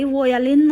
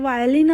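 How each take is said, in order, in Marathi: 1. शब्द 'vo' आवाजाने सुरू होतो. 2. शब्द 'vai' आवाजाने सुरू होतो. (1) "अगं बाई वोयालिन नसतं ते" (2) "वायलिन असतं"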